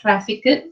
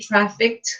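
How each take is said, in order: First: The ending is said as an extra syllable. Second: The ending is not said as an extra syllable. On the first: The speaker calls it wrong. "not trafficked" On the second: The speaker calls it right. "It's actually trafficked, you don't have to pronounce the ed at the back"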